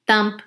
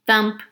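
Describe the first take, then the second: No difference in how they are said.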